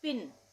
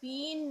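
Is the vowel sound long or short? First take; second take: short; long. First: The vowel is a short i sound. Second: The vowel is a long ee sound. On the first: The speaker calls it right. "छोटी ई का उच्चारण हो रहा है, तो इसको हम पढ़ेंगे पिन" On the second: The speaker calls it wrong. "इसको हम पीन नहीं पढ़ेंगे"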